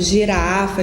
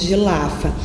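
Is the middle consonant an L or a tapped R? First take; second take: tapped R; L. First: The middle consonant is a tapped R. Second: The middle consonant is an L. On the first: The speaker calls it right. "R de ponta de língua" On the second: The speaker calls it wrong. "falar um gilafa"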